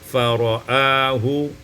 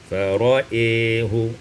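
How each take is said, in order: First: The vowel after the hamza is an open a. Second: The vowel after the hamza is tilted toward e.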